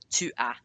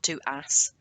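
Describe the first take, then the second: First: The final s is silent. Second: The final s is pronounced. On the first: The speaker calls it right. "final consonants are usually silent in French" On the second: The speaker calls it wrong. "not tu as"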